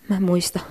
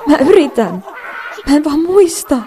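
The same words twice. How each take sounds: First: Said in the usual way. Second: Much higher and louder, near tears; breaking down in front of class; panicked cry. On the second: Acted. Panics blanking at presentation. (paniikissa itkun partaalla)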